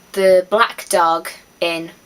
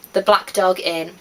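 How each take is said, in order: First: Slow grand announcement. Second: Said in the usual way. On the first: Shown as a demonstration. Vlogger reveals her dream pub's name, slow and deliberate. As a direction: unveil the pub name slowly, like a reveal. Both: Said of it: "That's what my pub would be called".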